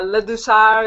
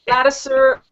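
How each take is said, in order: First: The surname is pronounced with French sounds. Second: The surname is pronounced with English sounds.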